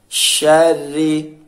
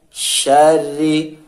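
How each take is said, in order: The two takes are said the same way.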